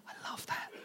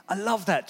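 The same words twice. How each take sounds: First: Soft unvoiced whisper of delight. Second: Said in the usual way. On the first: Real, not acted. Preacher savouring the moment, whispered. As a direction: breathe it to yourself, awed. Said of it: "whispered then repeated". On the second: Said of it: "repeated aloud".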